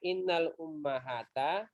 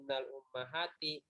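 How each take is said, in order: First: The last word ends with an 'a' vowel. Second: The last word ends with an 'i' vowel. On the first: The speaker calls it wrong. "tidak dibaca" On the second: The speaker calls it right. "tetapi ... bukan fathah tetapi kas kasroh"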